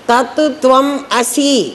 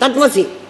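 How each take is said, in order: First: Three words are said separately, with breaks. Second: The words are run together quickly as one. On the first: It is three distinct words. "మూడు పదాలవి" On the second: The speaker is showing off familiarity with it. "స్పీడ్గా చెప్పడంలో"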